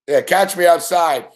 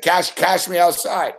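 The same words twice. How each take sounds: First: Said in the usual way. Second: Put-on slow quoting the viral Cash me outside girl; meme catchphrase. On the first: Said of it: "Said, Cash, cash me outside". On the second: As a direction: drawl it like the meme.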